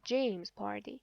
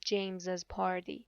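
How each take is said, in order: First: The name ends with one S sound. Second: The name ends with two S sounds. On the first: The speaker calls it right. "فقط یک اسش رو تلفظ میکنید" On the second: The speaker calls it wrong. "دیگه نمیگید James's party"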